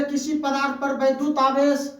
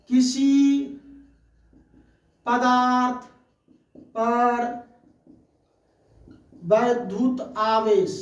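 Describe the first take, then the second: First: Said in the usual way. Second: Each word set apart by long pauses; slow, spaced-out teacher dictation. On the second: Shown as a demonstration. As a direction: dictate it word by word for note-taking. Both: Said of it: "इसको हम पढ़ेंगे".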